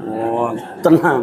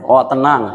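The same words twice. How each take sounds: First: Drawn out, laughing, teasing; lazy sarcastic repeat through a laugh; slow mock echo. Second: A chuckle through the words; amused, light echo; laughing mock reply. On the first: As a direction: stretch it slowly, mocking the promise. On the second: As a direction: laugh it off as you echo the promise. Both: Mocking a friend's empty promise.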